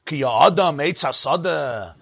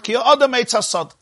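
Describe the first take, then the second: First: "Ki Adam Eitz Hasada" drawn out slowly as a question; slow, questioning reading of "Ki Adam Eitz Hasada"; posed as a question. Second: "Ki Adam Eitz Hasad" quicker and high-pitched, falling at the end; raised, declarative "Ki Adam Eitz Hasad" with a falling close; stated as fact. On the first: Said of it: "says it as a question". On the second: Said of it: "say it as a statement". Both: Shown as a demonstration.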